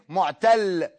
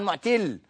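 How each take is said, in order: First: معتل with an "a", mu'-TALL; correct word form. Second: معتل misread with an "i", mu'-TILL; nonexistent word form. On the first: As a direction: say معتل as mu'tall, fatha on the t. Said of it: "يعني بقول إيه؟". (معتل بفتح التاء) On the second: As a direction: say معتل as mu'till, kasra on the t. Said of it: "عمرنا ما سمعنا عن معتل". (معتل بكسر التاء خطأ) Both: Shown as a demonstration.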